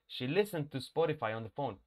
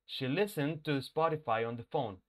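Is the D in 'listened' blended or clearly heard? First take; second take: blended; blended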